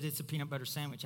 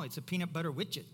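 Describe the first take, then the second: First: Said in the usual way. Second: "widget" said "witch-it" in place of sandwich; toddler mispronunciation. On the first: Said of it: "She said". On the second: Retold or imitated. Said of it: "They were not saying it right".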